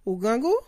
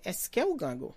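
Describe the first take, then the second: First: Rising question on "gwo", higher and louder; question tune. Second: Said in the usual way. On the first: Shown as a demonstration. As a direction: end "Ou gen gwo?" with a clear upward lift on "gwo". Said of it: "Like a question". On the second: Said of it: "which is automatically a question".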